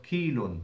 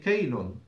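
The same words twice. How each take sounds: First: "kilun" with a long ee, kee-lun; long i form. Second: "kaylun" with an ay glide, kay-lun; fatha on kaf. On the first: Teacher contrasts the book's form, "kilun" said with ee. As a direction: say the first syllable of "kilun" as kee. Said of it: "instead of kilun". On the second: Teacher voices a student's question, "kaylun" said with ay. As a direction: open the first syllable of "kaylun" to kay. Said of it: "kaylun with the fatha on the kaf". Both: Shown as a demonstration.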